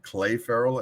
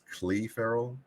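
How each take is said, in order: First: The first name sounds like 'Clay'. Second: The first name sounds like 'Clee'. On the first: The speaker calls it wrong. "You call him Clay Farrell" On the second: The speaker calls it right. "and it's Clee Farrell"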